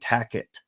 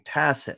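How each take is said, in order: First: The middle consonant is a K sound. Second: The middle consonant is an S sound.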